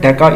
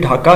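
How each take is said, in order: First: The name is said the old British way. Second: The name is said the current local way. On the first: This is the form used during colonial rule. "pronounced by the British" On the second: This is the official name used now. "ये basically जो है ये ढाका है"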